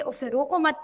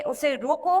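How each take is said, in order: First: "उसे रोको मत" as one unit up to "मत"; pause after मत. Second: "उसे रोको" ending on a slight rise at "रोको"; pause after रोको. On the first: Teacher quoting the other boy's words, break after "मत". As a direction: set off "मत" as the break point. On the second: Teacher quoting one boy's words, break after "रोको". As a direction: set off "रोको" as the break point. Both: Shown as a demonstration. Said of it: "के बाद अल्प विराम लगा है".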